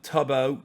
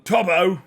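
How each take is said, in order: First: Said in the usual way. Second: Loud, high exclamation of a name; hammed-up name shout; mock shout. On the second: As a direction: call the name out playfully. Calls out friend's name, exaggerated.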